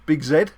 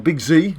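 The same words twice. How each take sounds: First: The letter Z is said the British way, 'zed'. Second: The letter Z is said the American way, 'zee'.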